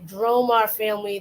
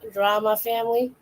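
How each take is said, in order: First: The name is said as Dromar. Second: The name sounds like the word drama. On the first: The speaker calls it right. "I'll say it correctly" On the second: The speaker calls it wrong. "Sounds like I'm saying drama when I'm really trying to say Dromar"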